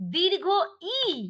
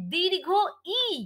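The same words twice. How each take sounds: First: The two parts are said clearly separated. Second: The two parts are said clearly separated.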